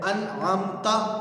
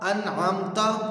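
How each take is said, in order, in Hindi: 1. आखिरी अक्षर 'a' स्वर पर खत्म होता है। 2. आखिरी अक्षर 'a' स्वर पर खत्म होता है।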